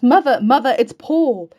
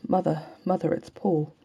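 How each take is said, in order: First: High, loud calls up the stairs; excited shout. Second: Said in the usual way. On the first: A narrator's reading. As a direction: shout the news through the house. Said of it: "and shouts". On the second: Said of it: "I can't go on".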